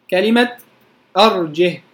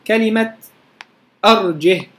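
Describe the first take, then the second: No difference in how they are said.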